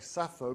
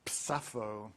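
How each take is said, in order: First: The name begins with a plain s sound. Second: The name begins with a ps sound. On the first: The speaker calls it wrong. "you don't say Sappho because that's not how her name is pronounced" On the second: The speaker calls it right. "It's Psappho"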